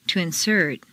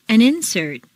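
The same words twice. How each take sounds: First: InSERT, stressed on the second syllable. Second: INsert, stressed on the first syllable. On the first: Teacher models verb "insert", second-syllable stress. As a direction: hit SERT in "insert". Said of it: "to the second syllable". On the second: Teacher models noun "insert", first-syllable stress. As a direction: hit IN in "insert". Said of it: "first syllable for nouns". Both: Shown as a demonstration.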